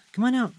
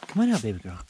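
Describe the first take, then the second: First: High sing-song come-on to the dog; high-pitched pet-talk call; high coaxing call. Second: Said in the usual way. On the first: Real, not acted. Calling the dog out.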